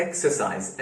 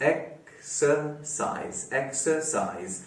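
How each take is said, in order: First: Said in the usual way. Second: exercise in three slow, separated syllables, softly. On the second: Shown as a demonstration. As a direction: pause inside exercise after each syllable. (Exercise को तीन हिस्सों में रुक-रुक कर) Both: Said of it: "तीन syllables वाला word".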